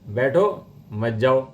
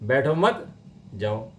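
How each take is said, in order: First: There is a pause after 'baitho'. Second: There is a pause after 'mat'.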